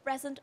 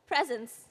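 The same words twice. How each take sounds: First: "present" said by mistake for presence; slip of the tongue. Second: "Presence" said as the corrected word; self-correction. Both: Real, not acted. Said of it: "I'm sorry".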